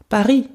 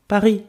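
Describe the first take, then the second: Both takes have the same delivery.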